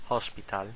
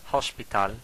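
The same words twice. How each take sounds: First: "hospital" with the Catalan stress on the last syllable; Catalan pronunciation. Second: Said in the usual way. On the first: Shown as a demonstration.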